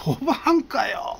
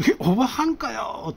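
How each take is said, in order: First: Much higher, slow disbelieving exclamation; comic astonished retort; incredulous cry. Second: Much higher, slow incredulous cry; deflated surprise at the twist; comic double-take; stunned disbelief. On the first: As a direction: senior stunned it's a woman. Senior reacts to the twist. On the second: Realizes it's a woman. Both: Retold or imitated.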